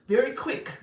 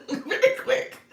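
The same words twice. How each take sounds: First: Said in the usual way. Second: Very quick spoken slowly through a high laugh. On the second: Real, not acted. Coaching her audience, says very quick while laughing. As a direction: giggle out very quick, drawn out.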